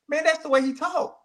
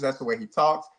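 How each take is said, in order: First: "Man, that's the way he talk" with "that's" thrown high and rising; emphatic, pitched up. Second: Said in the usual way. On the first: Real, not acted. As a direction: insist on "that's", voice jumping up.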